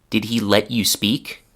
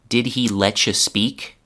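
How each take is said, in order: No difference in how they are said.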